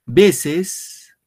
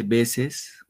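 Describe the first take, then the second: First: Higher and louder "Veces", stressed on "Ve"; announced loudly. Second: "veces" drawn out slowly, weight on "ve"; slowed for stress. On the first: Teacher announcing the next word to pupils, loud. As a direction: call out "Veces" to the class. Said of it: "Ticia y ticia por acá". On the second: Teacher showing pupils the stress, slow and drawn out. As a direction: stretch "veces" syllable by syllable. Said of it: "fíjense, veces". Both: Shown as a demonstration.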